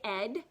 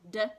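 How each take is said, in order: First: The ending is a full syllable, id. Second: The ending is a single voiced d sound. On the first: "It could say ed" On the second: "it could just make the D sound"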